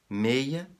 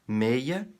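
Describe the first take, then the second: No difference in how they are said.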